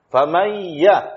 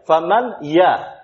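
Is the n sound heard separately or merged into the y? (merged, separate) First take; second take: merged; separate. First: The n merges straight into a doubled y. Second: The n is sounded separately before the y. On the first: The speaker calls it right. "Kan sekali saja makhraj itu. Dari mim ke ya" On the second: The speaker calls it wrong. "Faman untuk nun baru ya. Faman ya. Dua kali"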